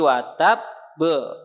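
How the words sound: A short pause comes before the final consonant. The speaker calls it right. "jeda dulu satu harokat"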